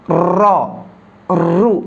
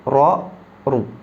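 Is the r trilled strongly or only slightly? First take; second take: strongly; slightly. First: The r is trilled strongly, with much vibration. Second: The r is trilled only slightly, with little vibration. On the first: The speaker calls it wrong. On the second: The speaker calls it right. "Getarnya sedikit saja"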